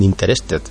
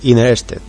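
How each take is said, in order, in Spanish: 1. La primera t se pronuncia claramente. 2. La primera t se omite por completo. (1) "que no dicen interested" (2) "la primera T la suprimen por la cara"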